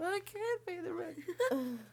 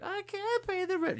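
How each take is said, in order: First: Slow high falsetto wail, laughing; damsel in distress. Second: High, far falsetto damsel wail; damsel in distress. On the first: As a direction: wail it like a melodrama heroine. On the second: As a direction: plead like a helpless melodrama heroine. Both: Retold or imitated. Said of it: "Snidely whiplash".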